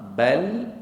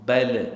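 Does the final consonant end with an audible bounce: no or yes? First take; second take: no; yes. First: The final consonant stops cleanly without a bounce. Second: The final consonant ends with an audible bounce. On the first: The speaker calls it right. "Yang pertama" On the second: The speaker calls it wrong. "Yang kedua salah pasal apa? Pasal ada tawallud"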